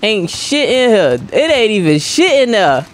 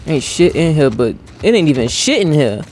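First: High, drawn-out mock griping; exaggerated complaint. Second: Said in the usual way. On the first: Gamer griping about an empty room, exaggerated complaint. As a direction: pitch it up and stretch the gripe.

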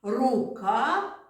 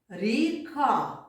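First: «Рука» with a clearly hard р, pitched up; «Рука» with a firm, hard р sound; hard R demo. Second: «ріка» with a soft palatal р; «ріка» with a soft р, set against «рука»; soft R demo. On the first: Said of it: "teacher demonstrates hard sound". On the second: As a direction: contrast by softening the р in «ріка». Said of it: "teacher demonstrates soft sound". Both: Shown as a demonstration.

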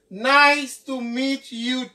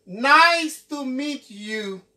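The two takes are said the same way.

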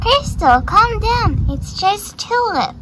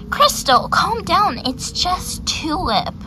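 First: Higher, sing-song mimicry; mocking echo. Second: Said in the usual way. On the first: Annoyed horse parroting being told off, high mocking echo. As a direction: parrot it back in a high mock voice. Words echoed back in mockery.

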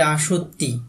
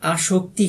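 First: আসক্তি said without the k, as "a-sho-tti"; আসক্তি with the k dropped, a doubled t instead; corrected word. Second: আসক্তি said with a clear k, "a-shok-ti"; আসক্তি with the k sound kept in the cluster; wrong word. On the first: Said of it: "এটা হবে". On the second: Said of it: "আসক্তি হবে না". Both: Shown as a demonstration.

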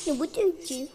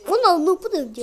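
First: Said in the usual way. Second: Louder surprised cry; loud, stunned outcry; shocked shout. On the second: Real, not acted. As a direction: yell it in disbelief. Repeats line after getting hit.

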